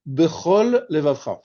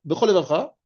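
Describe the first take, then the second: First: Bechol levavcha slowly, both l sounds distinct; carefully separated lameds. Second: Bechol levavcha run together as one word; swallowed lamed. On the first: Teacher showing which letters can get swallowed, careful separation. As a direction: hold the end of Bechol, then start levavcha afresh. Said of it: "des lettres qui peuvent être avalées". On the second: Teacher showing what reading too fast does, swallowed lamed. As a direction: merge both l sounds in Bechol levavcha into one. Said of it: "tu as fait sauter un lamed". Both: Shown as a demonstration.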